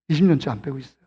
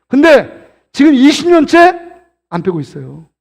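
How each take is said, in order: First: Low, soft repeat; subdued admission. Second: Slow, raised "이십 년째" with a lift; emphatic confession. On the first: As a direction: drop right down, admit it quietly. Repeats the confession, dropped low. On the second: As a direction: punch "이십 년째" high, then let the rest drop. Punchline confessing his failed diet. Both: Real, not acted.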